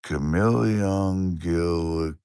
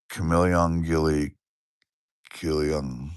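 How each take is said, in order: First: Very slow, drawn out "Chameleon Gilly"; a second, slower go at the viewer's name; slower second try. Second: Slow, careful try at "Chameleon Gilly"; carefully reading a viewer's name aloud; careful name attempt. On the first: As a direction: stretch "Chameleon Gilly" syllable by syllable. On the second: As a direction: sound out "Chameleon Gilly" slowly. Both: Shown as a demonstration. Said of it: "I'm gonna try to say your name again".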